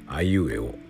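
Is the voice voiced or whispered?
voiced. The vowels are spoken with full voice. "これは有声ですけども"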